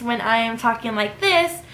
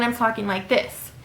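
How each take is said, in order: First: Slightly brighter with an audible smile; smiling voice. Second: Said in the usual way. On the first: Shown as a demonstration. Showing listeners how a smile sounds on the phone, smiling. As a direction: let the smile come through the words. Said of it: "you can tell the difference when I am talking like this". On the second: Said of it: "versus when I'm talking like this".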